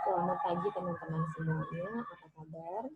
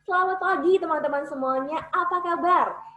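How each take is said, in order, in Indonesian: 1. Diucapkan dengan mulut hampir tidak terbuka, tidak jelas. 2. Diucapkan dengan mulut terbuka lebar, jelas. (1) "Itu kalau saya nggak membuka secara sempurna" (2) "ketika saya membuka secara sempurna"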